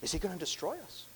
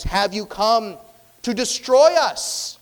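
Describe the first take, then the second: First: High, hushed worried question; fearful question. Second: High, loud, slowed demand; defiant challenge. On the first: Demon dreading that Christ will destroy them, hushed fear. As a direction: ask it softly, pitch rising in fear. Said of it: "There could have been a fear here". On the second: Demon demanding an answer from Jesus, loud defiant shout. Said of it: "though, an obstinate". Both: Acted.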